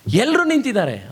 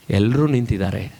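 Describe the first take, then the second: First: Higher, animated acted remark; raised-pitch onlooker's protest; urging onlooker. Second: Low, grave acted reply; low-pitched, sorrowful quote; subdued concession. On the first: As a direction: point it out insistently to someone weeping. Onlooker challenges weeping violinist. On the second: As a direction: concede it heavily, as the weeping violinist. Violinist's sorrowful answer.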